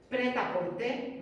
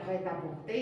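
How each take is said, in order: First: Prêt-à-porter said the Spanish way, slow and plain; Prêt-à-porter spelled out slowly as Spanish speakers say it. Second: Prêt-à-porter in French sounds, final r dropped. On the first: Teacher showing the class the Spanish prêt-à-porter. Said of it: "lo decimos así". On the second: Teacher showing the class the French original. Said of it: "en francés sería". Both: Shown as a demonstration.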